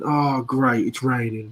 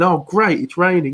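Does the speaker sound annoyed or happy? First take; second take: annoyed; happy. First: It sounds annoyed and sarcastic. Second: It sounds genuinely happy and pleased.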